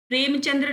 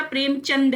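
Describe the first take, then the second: First: प्रेमचंद्र with an r after the d; wrong name form. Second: प्रेमचंद ending cleanly on d; correct name form. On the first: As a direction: say प्रेमचंद्र as prem-chan-dra. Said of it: "प्रेमचंद्र नहीं होता". (प्रेमचंद्र के अंत में 'द्र') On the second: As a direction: say प्रेमचंद as prem-chand, no r. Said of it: "प्रेमचंद है". (प्रेमचंद, अंत में र नहीं) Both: Shown as a demonstration.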